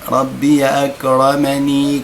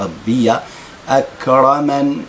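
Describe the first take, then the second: First: The last word ends with a vowel after n. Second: The last word stops on the consonant n. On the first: The reciter continues into the next words. "في حالة الوصل" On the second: The reciter pauses at this word. "أقف عند النون هكذا بالنون"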